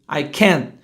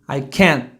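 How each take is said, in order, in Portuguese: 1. A frase termina em T sem soltar o ar. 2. A frase termina em T sem soltar o ar.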